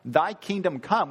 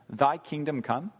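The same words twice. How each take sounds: First: "Thy kingdom come." said louder and higher, every word weighted; a fervent "Thy kingdom come."; earnest emphasis. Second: Pat prayer. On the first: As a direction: pray "Thy kingdom come." as a real plea, loud and firm. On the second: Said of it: "Just a pat prayer?". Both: Shown as a demonstration.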